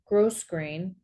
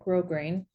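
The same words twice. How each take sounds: First: The first syllable sounds like 'gross'. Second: The first syllable does not sound like 'gross'. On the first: The speaker calls it wrong. "They pronounced it gross" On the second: The speaker calls it right. "I would call it grosgrain"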